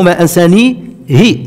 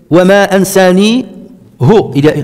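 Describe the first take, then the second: First: The last word ends with an i vowel. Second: The last word ends with a u vowel. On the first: It follows the more widespread reading of the text. "ce qui est le plus répandu" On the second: It follows one transmitted reading of the text. "c'est le hafs"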